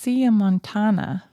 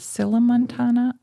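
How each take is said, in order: First: The double L is not said as L. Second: The double L is said as L. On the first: "I think it should be pronounced" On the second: "it has two L's, so perhaps you would pronounce it"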